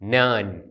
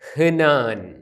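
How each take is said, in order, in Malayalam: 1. ഈ വാക്ക് h ശബ്ദമില്ലാതെയാണ് ആരംഭിക്കുന്നത്. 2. ഈ വാക്ക് h ശബ്ദത്തോടെയാണ് ആരംഭിക്കുന്നത്. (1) "ആദ്യത്തെ അക്ഷരമായ ഹേത്ത് ഉച്ചരിക്കുന്നില്ല" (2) "വി എന്നുള്ളതിൻ്റെ വാക്ക് ഹ്നാൻ"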